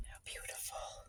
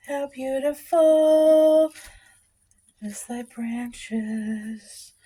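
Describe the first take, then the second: First: Breathy hushed whisper. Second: Slow sung carol line. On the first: Real, not acted. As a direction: whisper it in awe. Whispered admiration of squash. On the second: Pretend. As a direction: sing it like a Christmas carol. Sung carol parody to squash.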